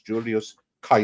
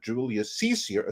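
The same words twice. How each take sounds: First: Caesar begins with a hard K sound. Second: Caesar begins with a soft S sound. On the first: This is how the Romans said it. The speaker calls it right. "His name was" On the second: This is the modern way, unknown to Romans. The speaker calls it wrong. "they'd have no idea who the hell you're talking about"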